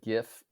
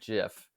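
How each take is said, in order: First: It begins with a hard G sound. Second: It begins with a soft G sound. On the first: "I said GIF up until literally today" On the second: "the soft G"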